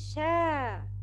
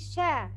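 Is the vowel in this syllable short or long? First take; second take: long; short. First: The vowel is long, held for two beats. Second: The vowel is short, held for one beat. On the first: "sheen with long vowel alif will be sha" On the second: "Letter with short vowel sheen, fatha, will be sha"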